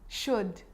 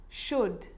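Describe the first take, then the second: The two takes are said the same way.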